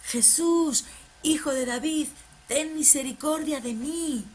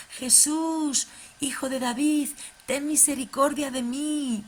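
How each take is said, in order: First: Louder mock shout. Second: Mock shout. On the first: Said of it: "a chillar aún más fuerte". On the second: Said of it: "empezó a gritar y dijo".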